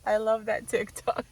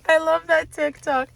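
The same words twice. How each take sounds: First: Said in the usual way. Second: Said through leftover laughter, higher; laughing. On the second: Real, not acted. Gushing to viewers about a TikTok, laughing. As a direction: still laughing as you say it.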